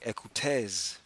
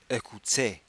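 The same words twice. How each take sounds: First: The word is read with English pronunciation. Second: The word is read with French pronunciation. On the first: The speaker calls it wrong. "if you were reading it as if it were English, you would say" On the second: The speaker calls it right. "because you know French, you pronounce it"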